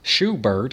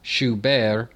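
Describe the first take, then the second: First: The name is said with an American pronunciation. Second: The name is said with a French pronunciation. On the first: "if you feel like talking like an American" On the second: "if you want to use a little bit of a French pronunciation"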